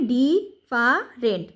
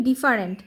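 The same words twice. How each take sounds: First: "ডি, ফা, রেন্ট" as three separate syllables; teacher's piece-by-piece "ডি, ফা, রেন্ট"; sounding out syllables. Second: Said in the usual way. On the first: Shown as a demonstration. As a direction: break it into "ডি", "ফা", "রেন্ট" with pauses. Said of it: "একসাথে যুক্ত হয়ে". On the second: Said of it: "একসাথে যুক্ত হয়ে ডিফারেন্ট হয়েছে".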